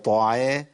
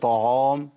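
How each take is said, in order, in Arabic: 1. صوت العين خفيف ورقيق. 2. صوت العين ثقيل ومفخم. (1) "العين هنا مرققه" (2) "ما اقولش طعام"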